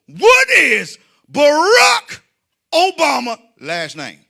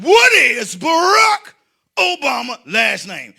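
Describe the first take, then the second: First: High, loud shout with stretched words; bellowed quiz question. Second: Slow, loud, exaggerated repeat. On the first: Retold or imitated. Comic quizzing a man for money, bellowed. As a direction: belt out the question, drawing out each word. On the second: Comic repeating the quiz question on request, loud and slow. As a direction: spell it out slowly at a high shout. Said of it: "but say it slow".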